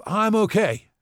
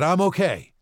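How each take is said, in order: First: High, loud insistence; insisting loudly. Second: High, loud repeated insistence; insisting again. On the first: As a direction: brush it off forcefully. Paul insists after fall. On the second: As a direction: push the reassurance harder. Paul repeats reassurance. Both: Acted.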